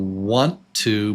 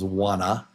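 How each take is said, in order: First: Both words are said fully and separately. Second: The words are reduced into one short word.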